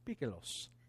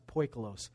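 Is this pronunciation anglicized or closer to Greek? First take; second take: Greek; anglicized. First: The word is said with a Greek-like pronunciation. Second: The word is said with an anglicized pronunciation. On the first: The speaker calls it right. "The closest I can get is poikilos" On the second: The speaker calls it wrong. "I used to pronounce it poikilos"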